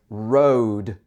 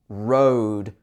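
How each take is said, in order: The two takes are said the same way.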